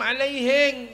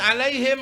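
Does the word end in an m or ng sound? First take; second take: ng; m. First: The word ends with an ng sound. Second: The word ends with an m sound.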